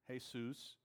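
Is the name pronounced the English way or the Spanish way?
Spanish. It is pronounced the Spanish way. "or in Spanish"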